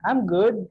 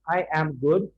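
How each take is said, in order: First: I and am are joined into one syllable. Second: I and am are said as separate words. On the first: The speaker calls it right. "Just conjoin it and then say" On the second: The speaker calls it wrong. "Don't break that I am"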